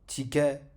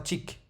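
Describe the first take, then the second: First: The word ends with an a vowel after k. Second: The word stops on k with no vowel. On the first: The speaker calls it wrong. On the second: The speaker calls it right.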